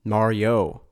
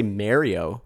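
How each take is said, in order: First: Mario said as MAR-ee-oh, three syllables; Mario with a clear ee in the middle. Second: Mario said MAIR-ee-oh, vowel like air; wrong Mario. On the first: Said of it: "Some people say Mario". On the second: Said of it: "and they're obviously wrong". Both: Shown as a demonstration.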